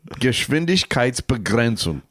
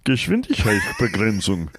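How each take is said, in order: First: It is said in the speaker's normal voice. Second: It is said in a Kermit the Frog voice.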